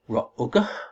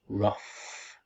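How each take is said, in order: First: The word is sounded out following its spelling. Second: The word is said as a short 'ruff'. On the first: The speaker calls it wrong. "maybe we pronounce this word Ra'ugh? ... No" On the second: The speaker calls it right. "We pronounce this word rough"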